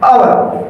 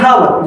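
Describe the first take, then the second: First: The word begins with a vowel, no h. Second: The word begins with a sounded h. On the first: The speaker calls it right. "इसका सही pronunciation है आवर" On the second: The speaker calls it wrong. "आप लोग इसको पढ़ते हैं हावर"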